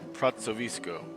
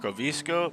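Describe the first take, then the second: First: The middle consonant is a TS sound. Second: The middle consonant is a hard K sound. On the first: "like a T S sound" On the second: "it looks like it spells"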